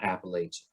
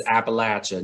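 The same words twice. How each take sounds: First: "Appalachia" with LAY as third syllable; rejected pronunciation. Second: "Appalachia" with LATCH as third syllable; correct regional pronunciation. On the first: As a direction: say "Appalachia" as app-uh-LAY-chuh. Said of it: "not Appalachia". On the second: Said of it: "Let's be clear". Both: Shown as a demonstration.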